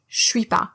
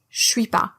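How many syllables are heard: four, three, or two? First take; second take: two; two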